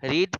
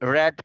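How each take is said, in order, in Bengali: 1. স্বরধ্বনিটি দীর্ঘ, 'reed' এর মতো। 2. স্বরধ্বনিটি হ্রস্ব, 'red' এর মতো। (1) "কিন্তু উচ্চারণটা কিন্তু ডিফারেন্ট।" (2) "রিডের পাস্ট ফর্মটার উচ্চারণ হবে রেড"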